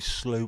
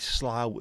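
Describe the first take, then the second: First: The vowel sounds like the one in 'too'. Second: The vowel sounds like the one in 'cow'. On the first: "as in through" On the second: "as in the bough of a tree"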